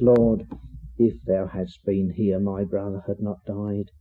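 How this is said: It sounds humble, like Mary submitting quietly.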